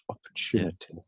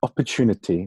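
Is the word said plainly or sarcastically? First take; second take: sarcastically; plainly. First: The word is said in a mocking, sarcastic tone. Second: The word is said in a plain tone.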